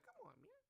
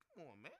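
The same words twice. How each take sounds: First: Put-on high, soft old-politician voice; imitating an elderly president's catchphrase, pitched high and soft; Joe Biden impression. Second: Said in the usual way. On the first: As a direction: lift the pitch way up and drop to a breathy hush, folksy scold. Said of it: "Joe Biden voice". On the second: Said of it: "like Joe Biden".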